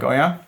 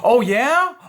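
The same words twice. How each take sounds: First: It sounds cool and almost cocky. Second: It sounds overly nice and eager.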